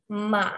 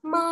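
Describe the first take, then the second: First: The pitch dips down, then rises again. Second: The pitch stays high and level. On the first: "nadanya berbentuk V, jadi dia ke bawah turun kemudian naik lagi" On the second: "nada pertama"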